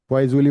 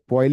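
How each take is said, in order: First: The name is said in an Indian way. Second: The name is said in a French way. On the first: The speaker refuses to follow the foreign pronunciation. "हम तो इंग- देसी में बोलेंगे इसको" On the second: This is the original-language pronunciation. "वैसे तो वे पॉइल ही होना चाहिए"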